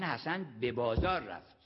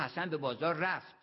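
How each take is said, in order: First: The stress falls on بازار. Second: The stress falls on رفت. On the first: He went there and not somewhere else. "یعنی حمام نرفت" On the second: There is no doubt that he went. "یعنی تردید نکنید"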